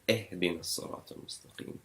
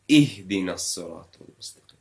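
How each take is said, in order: First: The kasra vowel is a more open 'e'. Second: The kasra vowel is a sharp 'i' sound. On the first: The speaker calls it wrong. "instead of" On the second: The speaker calls it right. "sharp downward pronunciation"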